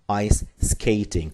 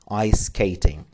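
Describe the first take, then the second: First: The phrase is said slowly with separate words. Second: The phrase is said quickly with words run together.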